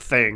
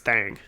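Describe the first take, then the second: First: The word is said with a short 'i' vowel. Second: The word is said with a drawled 'a' vowel. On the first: The speaker calls it wrong. "it's not thing" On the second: The speaker calls it right. "It's thang"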